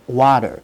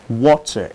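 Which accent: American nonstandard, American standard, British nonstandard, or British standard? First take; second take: American nonstandard; British standard. First: It is said in a nonstandard American accent. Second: It is said in a standard British accent. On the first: "is not standard American pronunciation" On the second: "in standard British pronunciation"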